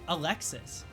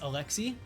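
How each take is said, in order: First: The final s sound is pronounced. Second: The final s sound is silent. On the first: This is how the name is said in America. "it could be a guy's name in America" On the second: This is how the name is said in France. "it's pronounced Alexi in France"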